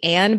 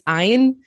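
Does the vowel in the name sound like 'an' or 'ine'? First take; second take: an; ine. First: The name has a short 'a' vowel like 'Anne'. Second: The name has a long 'ine' vowel sound. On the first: The speaker calls it wrong. "I would say, want to say Anne" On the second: The speaker calls it right. "but it's Ayn"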